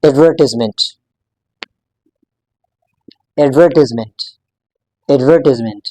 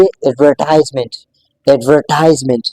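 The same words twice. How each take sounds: First: एडवर्टाइजमेंट with a short "tiz" syllable; American-style pronunciation here. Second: एडवर्टाइजमेंट with a long "tize" syllable; British-style pronunciation here. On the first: Teacher contrasts it with British form, American-style pronunciation. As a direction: say एडवर्टाइजमेंट as "ad-VUR-tiz-ment". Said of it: "American English में इसी same word को differently". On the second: Teacher repeats the British form for learners, British-style pronunciation. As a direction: stretch the "ties" sound in एडवर्टाइजमेंट. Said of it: "इसको हम बोलेंगे". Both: Shown as a demonstration.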